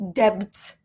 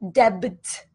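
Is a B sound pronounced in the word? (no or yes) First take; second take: yes; yes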